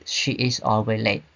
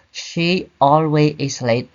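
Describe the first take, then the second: First: Said in the usual way. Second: Slow deliberate wrong example; wrong sentence. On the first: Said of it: "but we say". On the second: Shown as a demonstration. Teacher warning students off the wrong order, slow and deliberate. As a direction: lay out each word of the mistake slowly. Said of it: "We don't say".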